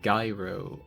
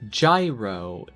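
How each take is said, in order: First: The word is pronounced the way the aerodynamics term is. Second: The word is pronounced the way the food is. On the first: It names the spinning device used in motion controls. "gyro's the one for aerodynamics" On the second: It names the food. "Gyro is the food"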